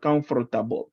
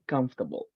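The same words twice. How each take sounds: First: The R sound is strongly pronounced. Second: The R sound is weak and barely pronounced. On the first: The speaker calls it wrong. "It is not comfortable. Uh-uh" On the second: The speaker calls it right. "The R is not emphasized"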